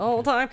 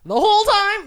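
First: Said in the usual way. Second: High, loud incredulous quote; movie quote shouted high; Mrs Doubtfire voice. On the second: Acted.

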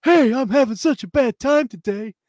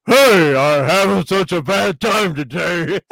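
First: High, loud mock dub actor voice; dubbed English voice. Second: Loud, slow, hammed-up imitation of the original actor; the actor's actual voice. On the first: Mimicking the dub to his co-host, high and hammy. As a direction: ham it up like a cheesy English dub. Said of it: "the main guy's like this". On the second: Showing his co-host the original voice, loud and slow. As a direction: stretch it out like the real actor. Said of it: "I'll say it in his actual voice".

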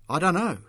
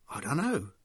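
First: Loud, high-pitched retort; sharp retort, voice raised. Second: Subdued, stumbling admission. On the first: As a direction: shoot back defensively. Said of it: "Mick had retorted". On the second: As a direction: admit it haltingly, at a loss. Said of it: "Mick had stumbled". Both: A narrator's reading.

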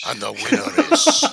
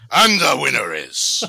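First: Hammed-up Irish announcer voice, laughing; mock Irish brogue, announcing the winner; mock Irish accent. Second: Mock gangster announcer, louder. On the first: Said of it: "I thought it was Irish". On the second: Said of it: "that's a bit gangster".

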